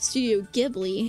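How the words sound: Ghibli is said with an American pronunciation. "is how a lot of Americans pronounce it"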